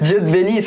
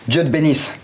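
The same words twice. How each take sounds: First: It is said with laughter in the voice. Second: It is said in a furious, angry tone. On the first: "Le rire" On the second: "Le vénère"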